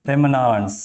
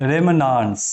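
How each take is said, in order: No difference in how they are said.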